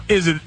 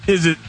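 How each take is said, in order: The two takes are said the same way.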